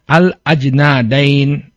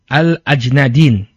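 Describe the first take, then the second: First: The vowel after the d is an 'a' sound. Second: The vowel after the d is an 'i' sound. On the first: "dal muhmalah maftuhah" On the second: "sebagian orang mengkasrohkannya"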